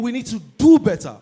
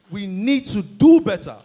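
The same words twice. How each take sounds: First: Urging emphasis. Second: Slow repeat. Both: Real, not acted.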